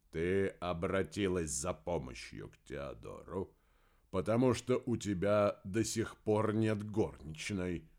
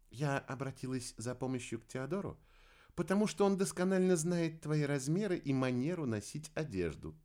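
First: Querulous, drawn-out husband's voice; grumpy husband. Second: Higher, lighter woman's voice; wife's retort. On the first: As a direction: complain to his wife, slow and cantankerous. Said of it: "сварливо произнёс Помпилио". (сварливо, медленно, ворчливым тоном) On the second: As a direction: answer the grumbling husband in a raised pitch. Wife rebuts grumbling husband. (высокий женский голос, возражение мужу) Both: A narrator's reading.

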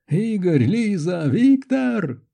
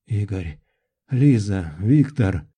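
First: Names shouted higher and higher; yelling. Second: Names rasped out low, one by one; low, strained calls after a nightmare; hoarse croak. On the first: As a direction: yell to friends who can't hear you. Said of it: "заорал я". (орать, всё выше с каждым именем) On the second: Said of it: "прохрипел я вслух". (хрипло и низко, с паузами) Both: A narrator's reading.

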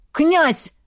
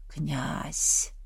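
First: High, loud call to wake him; urgent shout. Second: Low, hushed, distant call from the dark; ghostly whisper. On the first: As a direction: shout his title to snap him out of it. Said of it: "Голос Береслава промелькнул". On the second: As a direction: call him like a ghost in a nightmare. Ghostly voice calls in delirium. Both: Acted.

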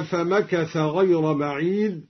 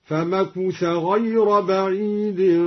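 First: Said in the usual way. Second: "فمكث" as famakutha, chanted slowly; damma on kaf. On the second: Shown as a demonstration. Teacher demonstrating al-Duri, "فمكث" chanted with u on kaf. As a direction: recite slowly with u after the k in "فمكث". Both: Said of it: "ضم الكاف".

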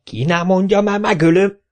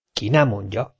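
First: Higher, louder roar of "ki nem mondja"; mayor roaring at his lackeys. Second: Said in the usual way. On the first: A narrator's reading. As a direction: bellow the threat. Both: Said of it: "ordított a polgármester".

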